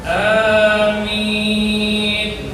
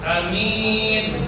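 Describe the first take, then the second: First: Both vowels are long, the first clearly lengthened. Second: The first vowel is short, the second long. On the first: The speaker calls it right. "Yang benar di situ panjang, a-nya minimal dua harokat" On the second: The speaker calls it wrong. "kalau dibaca a-nya pendek"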